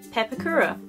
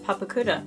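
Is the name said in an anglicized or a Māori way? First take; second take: anglicized; Māori. First: It is said with an English-style pronunciation. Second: It is said with a Māori pronunciation. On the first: The speaker calls it wrong. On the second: The speaker calls it right.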